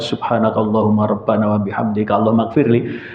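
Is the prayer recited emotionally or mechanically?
mechanically. It is recited flatly and mechanically, without feeling. The words are memorized without understanding. The speaker calls it wrong. "apal tok"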